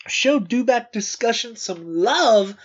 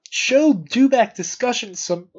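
First: Said in the usual way. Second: Interrupted by a hiccup. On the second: Real, not acted. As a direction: speak through hiccups. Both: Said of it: "I'm hiccuping".

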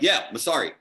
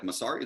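First: "Masari" stated with a falling close; higher "Yeah", then "Masari" falling in confirmation; confirming. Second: Rising, softer question on "Masari"; quietly checking the name "Masari"; questioning echo. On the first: Others confirm the name. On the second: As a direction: ask "Masari" back, voice lifting at the end. Echoes a name in surprise. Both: Retold or imitated.

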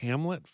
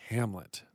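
First: Rising, doubtful Hamlet?; puzzled question. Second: Said in the usual way. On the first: Real, not acted. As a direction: ask Hamlet? in disbelief. Reacting to odd name.

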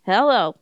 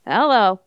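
First: Hillbilly hello. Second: Country drawl. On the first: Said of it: "Total hillbilly". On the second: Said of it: "in a country voice". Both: Retold or imitated.

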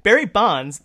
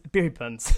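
First: Said in the usual way. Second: Bonds said as "bunz"; short "uh" vowel in Bonds; mispronounced name. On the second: Real, not acted. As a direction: trip over Bonds so it rhymes with "puns". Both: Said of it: "what is going on with me".

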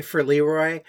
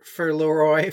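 First: "Leroy" said LEE-roy, first syllable stressed; "Leroy" with a long EE, weight on LEE; Tennessee pronunciation of Leroy. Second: "Leroy" said LOR-oy, open first vowel, stress on ROY; "Leroy" as LAW-roy with a rising end; film's pronunciation of Leroy. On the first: Podcaster correcting to the home pronunciation, "Leroy" as LEE-roy. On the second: Podcaster showing how the film says the name, "Leroy" as LOR-oy. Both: Shown as a demonstration. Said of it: "they call him Leroy instead of Leroy".

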